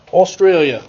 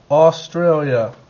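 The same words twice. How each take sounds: First: Playful put-on Australian accent. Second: Said in the usual way. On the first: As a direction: say Australia like an Aussie. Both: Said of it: "I'm speaking in my Australian accent".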